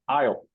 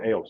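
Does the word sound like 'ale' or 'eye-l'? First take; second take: eye-l; ale. First: The vowel sounds like the word 'eye'. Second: The vowel sounds like the one in 'ale'. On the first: The speaker calls it right. "with an I" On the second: The speaker calls it wrong. "I said ale, sorry"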